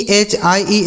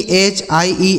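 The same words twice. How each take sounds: The two takes are said the same way.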